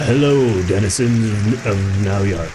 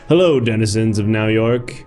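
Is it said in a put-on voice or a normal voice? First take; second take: put-on voice; normal voice. First: It is said in a put-on character voice. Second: It is said in his normal speaking voice.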